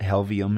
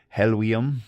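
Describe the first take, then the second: First: The middle consonant is a clear V sound. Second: The middle consonant is not a V sound. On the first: "if you read it with pronounce the V" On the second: "is how I'll say it"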